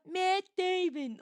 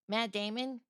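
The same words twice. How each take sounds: First: The name is said in an exaggerated imitation voice. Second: The name is said in an ordinary speaking voice.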